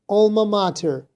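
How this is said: It is said with an American accent. "whereas the American was more like"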